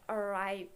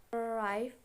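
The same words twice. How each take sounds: First: "arrive" with RIVE stressed and drawn out; stress on last syllable. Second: Said in the usual way. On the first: Shown as a demonstration. Teacher showing a strong last syllable, arRIVE stressed. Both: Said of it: "if the last syllable is strong, it is emphasis".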